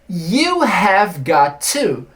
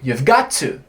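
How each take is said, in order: First: Every word is said fully, with no contraction. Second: 'Have' is contracted, but 'got to' stays separate. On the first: "you have got to significa você tem que" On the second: "eu posso contrair um pouquinho e falar you've got to"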